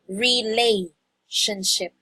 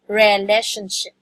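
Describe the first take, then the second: First: The second syllable has the vowel of 'lay'. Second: The second syllable has a different, unclear vowel. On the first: The speaker calls it right. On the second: The speaker calls it wrong. "when you pronounce it, it's like relationship"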